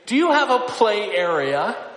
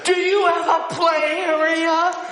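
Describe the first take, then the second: First: It is said somewhat louder, at moderate volume. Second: It is said as loudly as possible. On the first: The request is repeated after being ignored. "she would lift up her voice a little louder" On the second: The request can no longer be ignored. "she would lift her voice as loud as she could"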